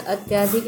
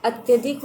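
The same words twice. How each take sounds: First: "अत्यधिक" with long aa after ty; wrong form demonstrated. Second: "अत्यधिक" with short a after ty; correct form demonstrated. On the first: Teacher rejecting misspelling, "अत्यधिक" with stretched yaa. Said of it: "नहीं होता है". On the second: Teacher giving right spelling, "अत्यधिक" with short ya. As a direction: say "अत्यधिक" as at-ya-dhik. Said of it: "होता है". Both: Shown as a demonstration.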